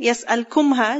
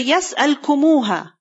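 First: No vowel separates 'kum' and 'ha'. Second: A 'u' vowel separates 'kum' and 'ha'. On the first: The speaker calls it wrong. "it's kind of difficult" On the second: The speaker calls it right. "this waw over here, is basically for the ease of pronunciation"

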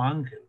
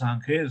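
First: The stress is on the first syllable. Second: The stress is on the last syllable. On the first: The speaker calls it right. "sino Ángel" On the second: The speaker calls it wrong. "Tú no pronuncias Ángel"

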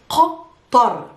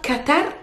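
First: The Q and T are deep guttural sounds. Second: The Q and T are plain, not guttural. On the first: The speaker calls it right. "it's Qatar. Both guttural sounds, Q and T" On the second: The speaker calls it wrong. "It's not Qatar"

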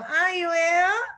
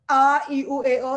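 First: The vowels sound thin and shrill. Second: The vowels sound round and full. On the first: The speaker calls it wrong. "suaranya jadi cempreng" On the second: The speaker calls it right. "itu bulat jadi suaranya"

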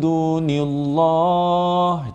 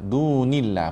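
First: The 'l' in 'llah' is heavy and thick. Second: The 'l' in 'llah' is light and thin. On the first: The speaker calls it wrong. "Itu salah. Itu tebal" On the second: The speaker calls it right. "Baru betul"

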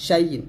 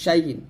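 The two takes are said the same way.

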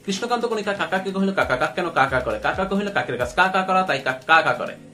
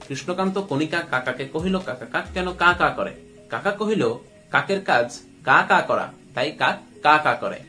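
First: It is said at a faster pace. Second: It is said a little more slowly.

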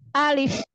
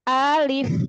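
First: The word is said short and directly. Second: The word is drawn out with a swinging tune. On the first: The speaker calls it right. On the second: The speaker calls it wrong. "maka jangan alif"

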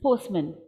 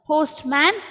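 First: The vowel in 'man' is a reduced schwa sound. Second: The vowel in 'man' is a full 'a' sound. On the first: The speaker calls it right. "it's postman. ... my short vowel a became a schwa" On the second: The speaker calls it wrong.

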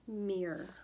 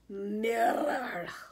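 First: It is said in an Illinois accent. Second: It is said in a Scottish accent.

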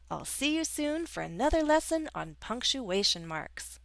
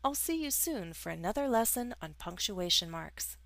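First: It is said with strong, lively emotion. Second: It is said in a flat, neutral tone. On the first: The statement carries stronger feeling. "With an exclamation point, we're making a statement with stronger emotion" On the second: It is a plain statement. "If we use a period, it's a neutral sentence, like this"

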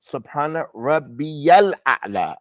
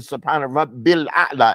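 First: A clear 'ya' sound follows 'Rabbi'. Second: No 'ya' sound follows 'Rabbi'. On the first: The listener clearly hears 'my Lord'. The speaker calls it right. "like we say what?" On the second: The possessive 'my' may go unheard. The speaker calls it wrong. "we don't say Subhana Rabbil A'la, and that's permissible"

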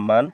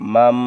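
First: The syllable ends with an n sound. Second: The syllable ends with an m sound. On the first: "মান হওয়ার কথা" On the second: "এই জন্য দন্তান্ন উচ্চারণ হবে ম"

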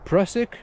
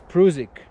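First: The name is pronounced in an English way. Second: The name is pronounced in a German way. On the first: "Most of English speakers, you probably say Prusik" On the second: "but in German spelling, it's Prusik"

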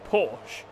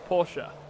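First: The name ends without a final vowel sound. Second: The name ends with a sounded final vowel. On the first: The speaker calls it wrong. "The Americans say Porsche because they just disregard the E" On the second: The speaker calls it right. "Porsche is pronounced Porsche"

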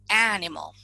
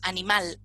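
First: It is said with English pronunciation. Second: It is said with Spanish pronunciation. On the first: "en inglés es animal" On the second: "decimos animal en español"

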